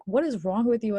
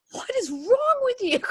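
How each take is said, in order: First: Said in the usual way. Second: Very high, incredulous squeal; mock outraged squeal. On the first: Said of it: "my ex-husband's like". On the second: Wife reacts to husband wanting Marley and Me, mock outraged squeal. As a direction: squeal it in hammed-up disbelief.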